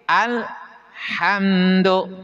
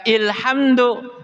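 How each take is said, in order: First: The word begins with an a vowel. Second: The word begins with an i vowel. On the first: The speaker calls it right. "hamzah wasol dibaca fathah" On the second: The speaker calls it wrong. "jangan dibaca ilhamdu"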